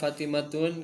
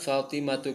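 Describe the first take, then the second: First: The name ends in u followed by n. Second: The name ends in a plain u vowel. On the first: The speaker calls it wrong. "Kenapa nggak Fatimatun? ... Jadi tidak boleh ada tanwin" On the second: The speaker calls it right. "Jalasat Fatimatu"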